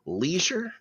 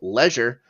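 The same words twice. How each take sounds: First: The word is said the American way. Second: The word is said a non-American way. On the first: "you Americans would say leisure" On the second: "I prefer leisure just because it sounds dumber"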